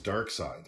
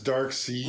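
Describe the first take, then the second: First: The name ends with a 'side' sound. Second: The name ends with a 'seed' sound. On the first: This is how the media usually pronounces it. "you hear it pronounced in the media, it usually is Dark Side" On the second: This is how the speaker always knew it. "I always knew it as Dark Seed"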